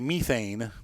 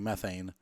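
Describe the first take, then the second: First: It is said the British way. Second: It is said the American way.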